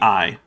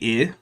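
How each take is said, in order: First: The vowel sounds like English 'eye'. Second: The vowel does not sound like English 'eye'. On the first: "like the English word spelled that way" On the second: "he does not mean that to be I"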